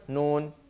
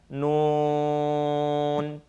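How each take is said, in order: First: The vowel is clipped short. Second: The vowel is held for several beats. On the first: The speaker calls it wrong. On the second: The speaker calls it right.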